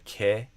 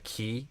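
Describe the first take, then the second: First: The vowel is a short, relaxed ih sound. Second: The vowel is a long, tense ee sound. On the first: "instead of a ke for the second syllable of making" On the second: "you're doing kind of a key"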